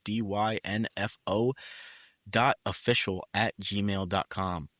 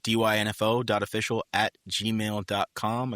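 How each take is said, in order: First: The address is said slowly. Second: The address is said fast.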